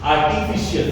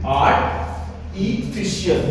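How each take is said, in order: First: The word is said smoothly as one unit. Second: The word is split into parts with a break.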